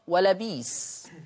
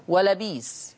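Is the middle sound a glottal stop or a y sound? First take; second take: y sound; y sound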